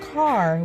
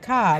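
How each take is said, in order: First: The word is said with a clear final r. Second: The word is said like 'cah', without a clear r. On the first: This is how others say it. "Not car" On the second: This is how people from Chicago say it. "why do we say car? Like C A H"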